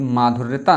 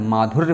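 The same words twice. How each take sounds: First: "माधुर्यता" with an extra -taa on the end; wrong word form. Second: "माधुर्य" ending on -rya, no extra syllable; correct word form. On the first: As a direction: say "माधुर्यता" with long maa and added taa. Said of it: "माधुर्यता नहीं होता है". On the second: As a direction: say "माधुर्य" as maa-dhur-ya, stopping there. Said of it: "सही शब्द क्या होता है?". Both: Shown as a demonstration.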